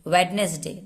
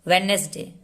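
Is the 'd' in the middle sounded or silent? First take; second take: sounded; sounded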